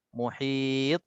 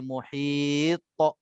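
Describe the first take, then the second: First: The word ends cleanly on its final consonant. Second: An extra 'ta' syllable follows the final consonant. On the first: The speaker calls it right. "contohnya muhit" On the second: The speaker calls it wrong. "kalau kita tak jaga dia akan jadi muhit ta ta ... Ini yang salah"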